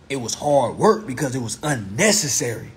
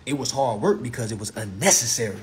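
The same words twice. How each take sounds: The two takes are said the same way.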